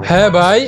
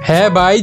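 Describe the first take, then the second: No difference in how they are said.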